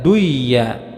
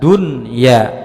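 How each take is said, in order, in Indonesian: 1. Huruf n dihilangkan dan melebur ke dalam y. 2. Huruf n dibaca jelas sebelum y. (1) "tidak boleh dibaca dengan duya" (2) "harus dibaca dengan jelas"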